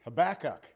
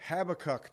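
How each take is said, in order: First: Habakkuk said ha-BAK-kuk, second syllable stressed; Habakkuk with the weight on the middle syllable, huh-BAK-kuk. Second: Habakkuk said HAB-a-kuk, first syllable stressed; Habakkuk with the weight on the first syllable, HAB-uh-kuk. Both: Shown as a demonstration. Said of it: "That's how he says it".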